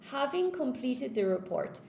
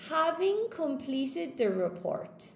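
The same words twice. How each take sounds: First: Said in the usual way. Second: Having completed the report, slow with stress on having; slow model reading. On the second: Shown as a demonstration. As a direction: read it out slowly like a model sentence. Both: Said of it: "with the participle clause".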